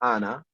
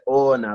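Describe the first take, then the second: First: The first vowel is not a full o. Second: The first vowel is a full o. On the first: This is how the listeners' dialect says it. "with you guys, it's it's very sort of, you'll say Ona for me" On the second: This is how the northern dialect says it. "they'll pronounce it as a as a full O"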